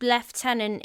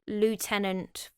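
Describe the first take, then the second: First: It is said in a British accent. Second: It is said in an American accent. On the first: "Lord Lieutenant" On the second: "the same as lieutenant for the American viewers"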